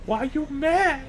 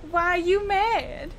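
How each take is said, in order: First: Squeaky, slow sassy question; high sassy voice. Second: Sassy voice. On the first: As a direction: pitch it way up, drawn out. Echoing the video line higher. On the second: Quoting a video line. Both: Pretend.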